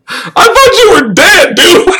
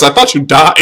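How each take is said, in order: First: High, slow laughing disbelief. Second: Said in the usual way. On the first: Real, not acted. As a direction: laugh the words out at the viewer. Laughing at returning chatter.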